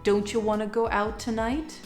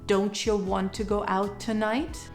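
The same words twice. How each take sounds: First: Both 'don't you' and 'want to' are reduced. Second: 'Don't you' is reduced to 'don't ya'. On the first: "take it to the next level" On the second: "could be shortened to"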